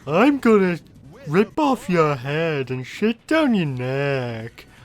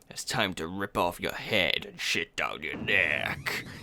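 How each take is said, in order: First: It is said in a Big the Cat voice. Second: It is said in a Duke Nukem voice.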